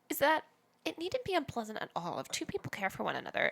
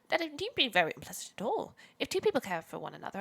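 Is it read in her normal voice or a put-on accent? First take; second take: normal voice; put-on accent. First: It is read in her normal voice. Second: It is read in a put-on accent.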